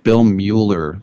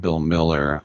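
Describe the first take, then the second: First: The surname has an oo vowel, like Mueller. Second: The surname has an ih vowel, like Miller. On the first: The speaker calls it right. "If Bill Mueller" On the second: The speaker calls it wrong. "says I'm Bill Miller, I'm not having it"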